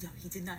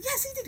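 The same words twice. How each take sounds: First: Said in the usual way. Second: Very high, squeaky contradiction; insistent retort. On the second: Retold or imitated. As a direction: insist at the top of your range. Acted yes-no quarrel.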